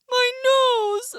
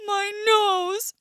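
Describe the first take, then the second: First: Even higher, louder crying wail; crying bear. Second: Much higher pained wail; hurt bear. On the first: Bear stung on the nose, crying wail. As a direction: wail harder in pain. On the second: Bear just stung on the nose, pained wail. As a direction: cry out at the sting. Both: Acted.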